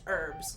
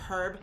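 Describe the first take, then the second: First: The word begins with a vowel, no H. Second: The word begins with an audible H sound. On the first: This is how the speaker's own region says it. "Whereas for us, we don't say the H. It's just herbs" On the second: This is how English people say it. "English people will say herb. They'll say the H"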